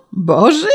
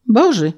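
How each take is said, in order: First: Questioning repeat, rising at the end; incredulous echo. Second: Said in the usual way. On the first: A narrator's reading. Official astonished by the peasant's answer, incredulous. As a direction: throw it back in disbelief.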